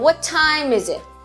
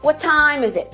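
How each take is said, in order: First: The words 'is it' are said weakly. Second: The words 'is it' are said weakly.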